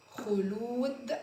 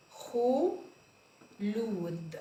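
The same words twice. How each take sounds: First: خلود again, slowly with a rise; slow repeat. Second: خلود drawn out very slowly; very slow sounding out. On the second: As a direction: stretch خلود long. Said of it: "sounding out name". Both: Shown as a demonstration.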